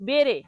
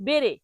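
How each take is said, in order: The two takes are said the same way.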